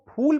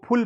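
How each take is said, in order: First: फूल with a long ऊ; फूल said with a long ऊ, the correct reading; long vowel. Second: फुल with a short उ; फुल said short, as the wrong reading of फूल; wrong short vowel. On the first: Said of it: "इसको फूल पढ़ना है". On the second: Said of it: "फूल को फुल पढ़ देंगे". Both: Shown as a demonstration.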